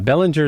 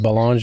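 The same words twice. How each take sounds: First: The name has an American pronunciation. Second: The name has a Canadian pronunciation. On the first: "Belanger is how the Americans say it" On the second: "Belanger is is how we uh, ca- Canadians"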